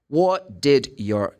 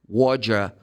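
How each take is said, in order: First: Each word is said separately and in full. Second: The words are squeezed into one quick reduced word. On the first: "the sentence is what did your" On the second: "when you speak fast or in a natural speed, you say Roger"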